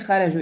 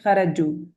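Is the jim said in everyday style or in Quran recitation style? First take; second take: everyday; recitation. First: The jim sounds like everyday spoken Arabic. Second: The jim sounds like formal Quran recitation. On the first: The speaker calls it wrong. "you're not gonna say kharaju" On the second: The speaker calls it right. "But in tajweed, you're gonna say kharaju"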